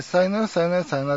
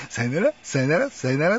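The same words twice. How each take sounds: First: High sing-song sayonara, ra lifted; light mock farewell; imitating the sign-off again. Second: Higher mock sayonara with rising ra; sing-song the triple goodbye like the TV host; playful imitation of a famous farewell; imitating the sign-off. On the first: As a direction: repeat the host's triple goodbye with a lilt. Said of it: "って三回言うんですけども". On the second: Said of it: "っていう".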